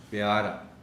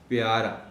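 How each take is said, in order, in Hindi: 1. p के बाद एक साफ़ i स्वर आता है। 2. p के बाद एक साफ़ i स्वर आता है।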